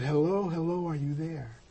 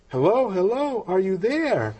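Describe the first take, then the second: First: Soft retold phone hello, trailing quieter; softly voiced caller, fading at the end; gentle checking. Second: High, singled-out retold hello; comically raised phone-caller voice, swooping; insistent checking. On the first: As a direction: check gently whether anyone is listening. Caller checks on silent listener. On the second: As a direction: call down the line to rouse someone. Caller repeats, trying to rouse listener.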